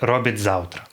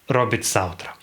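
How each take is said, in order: First: The consonants at the word boundary are both voiced. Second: The consonants at the word boundary are both voiceless. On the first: This follows the Ukrainian way of assimilation. "Обидва приголосних дзвінки" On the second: This follows the German way of assimilation. "Кіби цей закон у нас діяв так і у німців"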